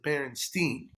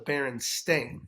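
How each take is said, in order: First: The last syllable rhymes with 'Einstein'. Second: The last syllable rhymes with 'rain'. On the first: The speaker calls it wrong. "I always pronounced it Berenstein" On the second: The speaker calls it right. "apparently it's the Berenstain, S T A I N"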